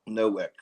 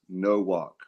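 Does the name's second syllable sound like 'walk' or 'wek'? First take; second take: wek; walk. First: The second syllable sounds like 'wek'. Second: The second syllable sounds like 'walk'. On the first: The speaker calls it wrong. "I've heard it" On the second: The speaker calls it right. "It's no walk"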